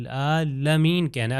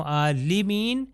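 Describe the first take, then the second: First: عالمین with fatha on lam, a-la-min; correct recitation. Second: عالمین with kasra on lam, a-li-min; wrong vowel. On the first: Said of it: "لام کے اوپر فتح ہے". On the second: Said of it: "اگر میں کہوں". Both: Shown as a demonstration.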